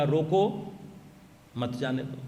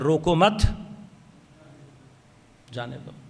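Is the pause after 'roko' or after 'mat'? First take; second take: after roko; after mat. First: There is a pause right after 'roko'. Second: There is a pause right after 'mat'.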